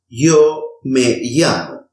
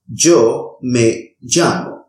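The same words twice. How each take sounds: First: The y and ll are soft, y-like sounds. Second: The y and ll are harsh, g-like sounds. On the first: "pronounce both of them as a soft E sound" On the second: "pronounce this sound as a harsh G sound"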